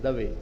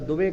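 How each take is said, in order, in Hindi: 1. गुजराती तरीके से बोला गया है, 'Dave'। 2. स्थानीय हिंदी तरीके से बोला गया है, 'Dube'। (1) "गुजरात में दुबे को दवे बोलते हैं" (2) "इधर दुबे कहते हैं"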